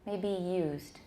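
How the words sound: The voice falls at the end.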